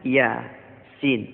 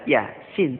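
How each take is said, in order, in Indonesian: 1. Nama hurufnya dilafalkan dengan vokal yang dipanjangkan. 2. Nama hurufnya dibaca biasa, seperti bahasa sehari-hari. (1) "Dibaca misalnya" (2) "tetapi bacanya tidak"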